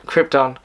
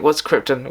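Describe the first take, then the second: First: Krypton with a broad open "tahn" ending; Jor-El style krypton. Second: Said in the usual way. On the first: Shown as a demonstration. Podcaster catching himself saying krypton like Jor-El on radio. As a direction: stretch krypton into KRIP-tahn like an old radio hero. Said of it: "I just said krypton like I was, uh, Jor-El". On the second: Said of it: "I just said krypton like I was".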